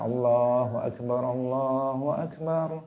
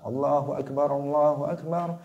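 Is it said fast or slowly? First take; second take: slowly; fast. First: It is said slowly, with pauses. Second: It is said fast, without lingering.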